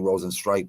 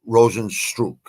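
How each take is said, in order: First: The last syllable sounds like 'strike'. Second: The last syllable sounds like 'struck'. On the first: The speaker calls it wrong. "I used to always say Rosenstrike" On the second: The speaker calls it right. "I'm pretty sure that's how you pronounce it"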